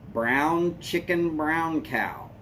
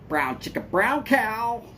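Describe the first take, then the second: First: It is said at a normal pace. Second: It is said a little faster.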